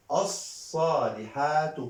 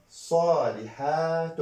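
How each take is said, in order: First: "الصالحات" said as-saalihaatu, high, long vowels; single damma ending. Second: "صالحات" said saalihaatun, high, long vowels; double damma ending. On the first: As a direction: stretch "الصالحات", ending on -tu without n. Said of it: "ضمة واحدة". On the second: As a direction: stretch "صالحات" and close on -tun. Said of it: "دو ضمة". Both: Shown as a demonstration.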